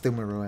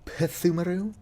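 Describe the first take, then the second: First: The word begins with no P sound. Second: The word begins with a clearly sounded P. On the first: The speaker calls it right. "it's just Thumeru" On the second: The speaker calls it wrong. "I for some reason put emphasis on the P"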